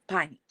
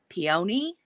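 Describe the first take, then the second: First: The word is said as piney. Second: The word is said slowly.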